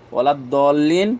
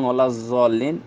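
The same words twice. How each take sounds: First: ওলা দলিন, plain Bengali d at the start of দলিন; dolin pronunciation. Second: ওলা জলিন, Bengali j at the start of জলিন, a little slow; jolin pronunciation. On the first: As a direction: say ওলা দলিন with a clear d sound, দ as in dal. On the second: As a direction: say ওলা জলিন with a j sound, জ as in jim. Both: Shown as a demonstration. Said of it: "এই দুইটা উচ্চারণ কোনোটাই ঠিক না".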